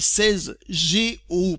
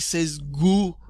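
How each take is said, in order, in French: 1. Les deux lettres sont épelées séparément. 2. Les lettres se lisent ensemble comme un seul mot. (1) "on dit G O, tout simplement" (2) "pas des seize Go"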